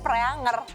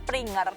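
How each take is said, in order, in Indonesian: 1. Namanya diucapkan Pre-ang-er. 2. Namanya diucapkan Pringer. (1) "mamah aku tuh bacanya Preanger" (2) "aku biasanya baca itu Pringer"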